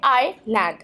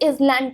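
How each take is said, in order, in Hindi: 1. land से पहले कोई s की आवाज़ नहीं बोली जाती है। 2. land से पहले s की आवाज़ बोली जाती है। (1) "राइट प्रोनाउंसिएशन होगी वर्ड आईलैंड की वो है आई लैंड" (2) "इसे इजलैंड कहते हैं और एस का यूज करते हैं"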